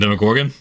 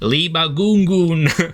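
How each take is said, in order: First: The name is said normally, starting with 'dem'. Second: The name is garbled, starting with an 'l' sound. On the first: This is the name's actual pronunciation. The speaker calls it right. "I mean" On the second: This is how the characters wrongly said the name. The speaker calls it wrong. "they were just like mispronouncing Demogorgon's name"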